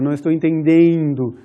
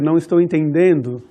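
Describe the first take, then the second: First: The E is stretched into a long diphthong. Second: The E is short and plain.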